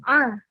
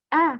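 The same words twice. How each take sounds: First: A vowel with a tight throaty constriction. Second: A plain vowel with no throat constriction. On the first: The speaker calls it wrong. "bukan a" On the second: The speaker calls it right. "amanu itu alif, maka dibacanya a"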